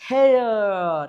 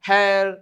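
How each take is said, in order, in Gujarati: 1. શબ્દ ધીમેથી બોલાય છે, ભાગોમાં તોડીને. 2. શબ્દ સામાન્ય ઝડપે સરળતાથી બોલાય છે. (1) "આ તો હું તમને સ્લો મોશનમાં સમજાવું છું" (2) "આમ જ વાંચવાનું હોય"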